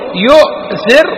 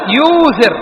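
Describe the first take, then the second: First: A glottal stop follows the first vowel. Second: A long u vowel replaces the glottal stop. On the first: "أبقينا الهمزة" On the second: "أو تقول يوثر"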